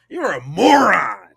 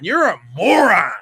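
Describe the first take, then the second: First: It is said with a firm, authoritative tone. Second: It is said in a plain, casual tone.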